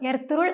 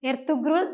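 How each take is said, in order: First: No g is heard; the vowel is lengthened. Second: A hard g sound is heard mid-word. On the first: The speaker calls it right. "യുമുഷാക് ഗെ പേര് പോലെ തന്നെ സോഫ്റ്റ് ആയാണ് ഉച്ചരിക്കേണ്ടത്" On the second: The speaker calls it wrong. "ഇത് തെറ്റാണ്"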